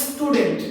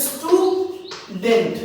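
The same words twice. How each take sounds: First: Said in the usual way. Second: "student" slowly, as stew, pause, dent; broken into syllables. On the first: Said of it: "আমি student একবারে বলতে পারবো না". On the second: Shown as a demonstration. Teacher showing a disyllable, "student" slowly broken in two. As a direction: split "student" into two separate beats. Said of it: "ভাঙা যাচ্ছে".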